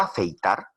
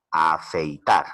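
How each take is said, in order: First: Said in the usual way. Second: "afeitar" pronounced lower and apart, weight on final "tar"; stress on last syllable. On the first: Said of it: "Por la pronunciación es una palabra aguda". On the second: Shown as a demonstration. Teacher sounds out "afeitar" to find its stress, final "tar" stressed. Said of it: "la mayor fuerza de voz recae en la última sílaba".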